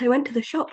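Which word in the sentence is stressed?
shop. The word 'shop' carries the stress. The shop was the only place visited. "says that I went to the shop, nowhere else"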